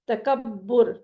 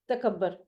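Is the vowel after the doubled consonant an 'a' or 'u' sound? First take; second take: u; a. First: The final syllable has a short u vowel. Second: The final syllable has a short a vowel. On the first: The speaker calls it right. "आइन कलिमा पर पेश बोलना है" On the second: The speaker calls it wrong. "हम उर्दू में क्या बोलते हैं?"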